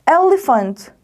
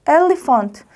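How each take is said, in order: The two takes are said the same way.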